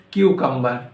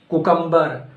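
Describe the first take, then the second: First: "cucumber" as KYOO-kum-ber; corrected CUCUMBER. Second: "Cucumber" as KOO-kum-ber; wrong CUCUMBER. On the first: Teacher correcting learners, "cucumber" said as KYOO-kum-ber. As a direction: say "cucumber" starting like the letter Q. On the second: Teacher quizzing learners on "Cucumber", said as KOO-kum-ber. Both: Shown as a demonstration. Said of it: "No, incorrect".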